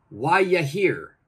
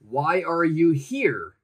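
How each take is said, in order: First: 'Are you' is joined into one short sound. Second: Every word is said fully and separately.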